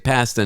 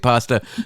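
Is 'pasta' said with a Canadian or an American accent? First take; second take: Canadian; American. First: It is said with a Canadian accent. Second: It is said with an American accent.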